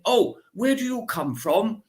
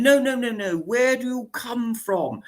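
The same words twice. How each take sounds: First: High, plummy put-on voice, questioning lift; mock aristocrat's polite probe; lightly hammed-up posh inquiry; posh lady asking. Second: Mock aristocrat refusing the answer, insisting; hammed-up posh lady demanding again; insistent posh lady. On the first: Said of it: "And she said". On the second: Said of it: "And then".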